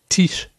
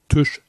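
First: The vowel is unrounded, like German i. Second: The vowel is rounded, like German ü. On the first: The speaker calls it right. "das I spricht man wie ein I" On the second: The speaker calls it wrong. "nicht wie ein Ü. Deswegen heißt es nicht Tisch"

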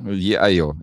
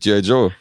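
First: The name is said with soft Y sounds. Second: The name is said with hard J sounds. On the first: "Oder wie unser Freund aus dem Kino sagen würde" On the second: "Selbstverständlich"

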